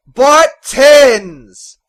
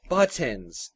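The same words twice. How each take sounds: First: Very loud, high bellow; volcanic shout. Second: Said in the usual way. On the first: A narrator's reading. Father repeats the errand to his son in a volcanic bellow. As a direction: erupt like a volcano. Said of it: "his voice volcanic". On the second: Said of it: "he repeated".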